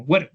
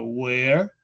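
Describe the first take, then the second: First: "where" with a brief, short W. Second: "where" drawn out a little; lengthened "where". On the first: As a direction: say "where" short, without drawing out the W. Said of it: "como más cortico, la, la W". ("where" corto, con la W cortica) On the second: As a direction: stretch "where" slightly longer, as a contrast. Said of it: "se alarga un poquitico". ("where" un poquitico alargado) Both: Shown as a demonstration.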